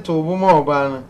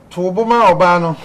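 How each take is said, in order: First: Said in the usual way. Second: Caller's plea read out firmly and louder; host voicing the caller, firm and loud. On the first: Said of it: "Ɔse". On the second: Host reads a listener's plea to Nana, firmly. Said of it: "Ɔse, "Nana".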